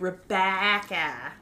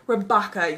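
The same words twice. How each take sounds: First: The name is said with tight Midwestern A vowels. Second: The name is said without Midwestern tight vowels. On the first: "As someone who came from a Midwest school system, it would be Rebecca. Got those tight A's" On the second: "pronounce it like the otter"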